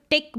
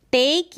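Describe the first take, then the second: First: "टिक" with a short, clipped vowel; short wrong vowel. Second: "टेक" with a long, held A vowel. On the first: Teacher showing the misspelt word's sound, short vowel. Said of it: "ये तो टिक बन जाएगा". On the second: Teacher modelling the correct word, long A. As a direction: stretch the A in "टेक". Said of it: "ए का उच्चारण long". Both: Shown as a demonstration.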